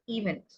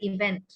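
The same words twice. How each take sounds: First: The stress is on the first syllable. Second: The stress is on the second syllable. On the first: The speaker calls it wrong. "a lot of people say event, and so it sounds like two" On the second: The speaker calls it right. "the stress is on the second syllable, it's how it should be said"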